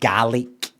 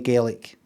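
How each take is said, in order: First: It is said with the Scottish pronunciation. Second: It is said with the Irish pronunciation. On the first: "You're the Scottish one. You stick to your shite pronunciation" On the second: "That's the Irish one"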